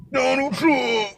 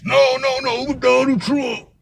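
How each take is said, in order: First: High, soft "Donald Trump" with the stress on Donald; mock repeat. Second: High, drawn-out "no, no, no, Donald Trump"; mock correction. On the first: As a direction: toss the name off high and quiet. Repeats the name to himself. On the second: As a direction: sing it up high and stretch it slowly, mocking. Correcting him in the retold argument.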